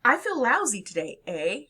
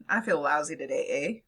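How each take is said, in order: First: "eh" as a real question, voice pitched up on "I feel lousy today, eh?"; checking the listener agrees with "eh"; seeking agreement. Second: "eh" tacked on flat, lower pitch, as a statement; emphatic "eh", no question in it; for emphasis. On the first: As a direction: ask "eh" wanting a yes back. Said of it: "as a way of seeking affirmation". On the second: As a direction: drop the voice and just underline it with "eh". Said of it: "or simply for emphasis". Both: Shown as a demonstration.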